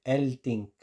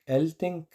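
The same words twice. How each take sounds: First: "elting" con i cerrada, tono descendente; pronunciación recomendada. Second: "elting" agudo, con vocal final abierta; pronunciación escrita. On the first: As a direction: di "elting" despacio, con i española. ("elting" lento, i cerrada) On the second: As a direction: di "elting" arriba, casi "eltenk". ("elting" con i abierta y tono alto) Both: Shown as a demonstration. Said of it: "se dice elting".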